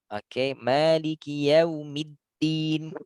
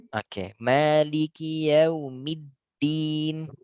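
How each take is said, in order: The two takes are said the same way.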